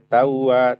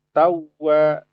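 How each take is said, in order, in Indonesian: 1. Bunyi w yang dobel diucapkan biasa, tanpa penekanan. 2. Bunyi w yang dobel diucapkan dengan sedikit penekanan. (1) "Jangan dibaca tawa" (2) "maka kita akan sedikit dinabarkan"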